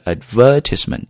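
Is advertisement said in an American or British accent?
British. It is said in a British accent, stressing ver. "if you're doing British accent, then it's advertisement, 重音在 ver 上面"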